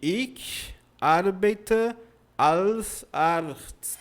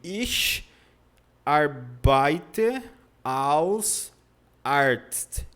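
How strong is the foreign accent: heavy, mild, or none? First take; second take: mild; heavy. First: It has a mild foreign accent. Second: It has a heavy foreign accent. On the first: A learner after two months says it. "Já está melhorando, mas não é perfeito" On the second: A beginner after one month says it. "com um mês o aluno fala assim"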